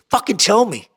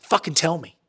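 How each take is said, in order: First: Higher, more forceful imitated order; insistent mock command on TELL; retold insistent demand. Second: Said in the usual way. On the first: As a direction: press them to confess, acting out the boss. Boss pressing harder, said second time.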